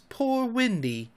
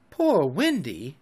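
First: Slow, high plaintive moan; soft, slow lament. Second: Said in the usual way. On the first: A narrator's reading. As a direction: moan it mournfully, drawn out. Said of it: "it moans".

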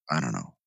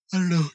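First: Said in the usual way. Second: A much higher, squeaky put-on voice; silly high-pitched falsetto; mock high voice. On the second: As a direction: pitch it way up, playful.

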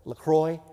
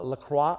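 First: LaCroix said as "la-KROY", ending in oy; LaCroix, rhymed with "boy" at the end; LaCroix, the ending switched to "-kroy"; second guess at the name. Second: LaCroix said as "la-KRAH", ending in an open ah; first guess at the name. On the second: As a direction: try LaCroix tentatively as "luh-KRAH". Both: Shown as a demonstration. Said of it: "How do you say it?".

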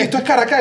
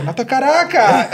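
First: High-pitched Caracas, stressed on the last syllable; mistaken newcomer stress. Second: High-pitched correction, Caracas stressed on the middle syllable; locals' correct stress. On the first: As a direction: mimic arrivals saying ca-ra-CÁS. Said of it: "Ellos la decían en la última". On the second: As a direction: correct them with ca-RA-cas. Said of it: "y la gente". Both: Retold or imitated.

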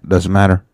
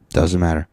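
First: Louder, punchy brush-off; emphatic dismissal. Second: Said in the usual way. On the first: Real, not acted. Host dismissing listeners who skipped the episode, loud and emphatic. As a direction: wave it away firmly.

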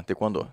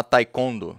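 First: "Taekwondo" as quick "te-kwon-DO"; final-syllable stress. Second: "Taekwondo" as "tai-KON-do"; middle-syllable stress. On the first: Instructor demonstrates the Korean form, "Taekwondo" stressed on final "do". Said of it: "sílaba tônica é a última". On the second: Instructor shows how some say it, "Taekwondo" as "tai-KON-do". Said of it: "sílaba tônica no meio". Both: Shown as a demonstration.

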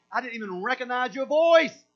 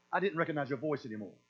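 First: Loud, high exclamation to a long-lost friend; delighted recognition. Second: Lower, quicker, matter-of-fact dismissal; understated, falling brush-off; cool non-recognition. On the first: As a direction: burst out in surprise on hearing a forgotten voice. Acts out hearing a long-lost friend on phone. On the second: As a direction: brush off a voice you no longer know. Acts out no longer knowing Satan's voice. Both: Acted.

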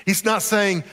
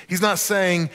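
No difference in how they are said.

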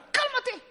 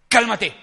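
First: Very high, small put-on voice; comic squeak of an order; squeaky command. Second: Loud, short order; firm command. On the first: Believer ordering a debt to settle, squeaky command. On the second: Believer ordering a storm to settle, firm loud command. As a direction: command it to stop. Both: Shown as a demonstration.

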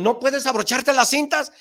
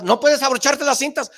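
First: High, loud nagging put-down; mocking shout. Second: Higher and louder put-down; louder mocking shout. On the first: Imitating people saying you can't tie your shoes, high and loud. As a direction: bark the put-down like a scold. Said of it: "O te dijeron". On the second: Repeating the shoe-tying put-down to yourself, louder. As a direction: push the put-down even harder. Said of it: "y tú te sacabas".

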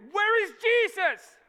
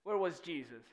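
First: High, loud panicked shout; drawn-out frantic cry; freaking out. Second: Said in the usual way. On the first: Acted. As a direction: yell out for help in the storm. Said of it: "they're all freaking out".

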